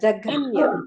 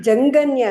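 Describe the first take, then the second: First: The middle has a breathy aspirated gh. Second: The middle has a nasal followed by plain g. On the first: The speaker calls it right. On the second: The speaker calls it wrong. "ಜಂಗನ್ಯ ಅಲ್ಲ"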